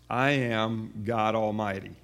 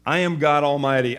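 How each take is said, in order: First: Slow, deliberate, the weight on "I" in "I am God Almighty"; stress on I, slowed. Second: "am" pushed loud and firm in "I am God Almighty"; stress on am. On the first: Preacher repeating it for the congregation, slow with "I" stressed. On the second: Preacher to congregation, "am" stressed loud and firm. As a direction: lean hard on "am", full voice. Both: Shown as a demonstration. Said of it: "encourage you to circle that phrase".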